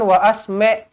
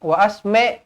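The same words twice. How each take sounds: The two takes are said the same way.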